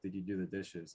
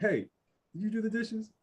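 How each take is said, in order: First: It is asked in a calm, gentle tone. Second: It is asked in a half-aggressive tone.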